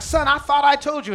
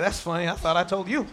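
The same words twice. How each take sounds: First: A hint of scolding parent, a bit louder; exasperated parent. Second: Lower, laughing reply; amused God. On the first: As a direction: scold the child mildly. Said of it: "You're like". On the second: Retold or imitated. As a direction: chuckle it back at the parent. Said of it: "And he's like".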